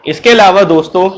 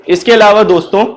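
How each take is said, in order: No difference in how they are said.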